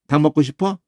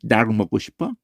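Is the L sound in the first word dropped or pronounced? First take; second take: dropped; pronounced. First: The L sound in the first word is dropped. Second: The L sound in the first word is pronounced. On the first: The speaker calls it wrong. "그냥 니을도 빼버리고" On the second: The speaker calls it right. "이게 정확한 거야"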